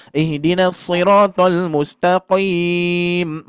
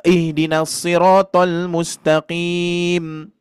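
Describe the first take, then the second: First: 「shiratal」を重く太く引き伸ばして; overdone recitation. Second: 「shiratal」を自然な厚みで; correct recitation. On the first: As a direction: drag shiratal out slow and thick, overdone. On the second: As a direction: recite shiratal plainly with normal thickness. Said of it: "Nah, gitu aja". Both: Shown as a demonstration.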